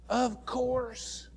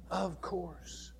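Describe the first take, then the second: First: Firm, higher "Of course"; emphatic of course. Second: "Of course" repeated much softer; soft echo. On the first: Preacher answering the disciples question, emphatic "Of course". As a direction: answer "Of course" as if it's obvious. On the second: Preacher echoing his own answer, quiet "Of course". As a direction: let "Of course" fall away quietly. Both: Shown as a demonstration.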